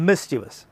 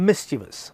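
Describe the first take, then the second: Both takes have the same delivery.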